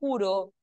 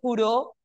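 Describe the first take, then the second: First: The stress is on the first syllable. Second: The stress is on the last syllable. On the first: I swear. "juro no lleva tilde porque es grave" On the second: He swore. "juró sí porque es aguda"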